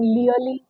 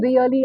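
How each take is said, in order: First: The word begins with an L sound. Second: The word begins with an R sound. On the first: The speaker calls it wrong. "I end up saying leally" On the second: The speaker calls it right. "instead of saying really"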